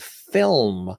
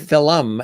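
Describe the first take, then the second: First: Film is said the standard way, one syllable. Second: Film is said the Irish way, like fil-um.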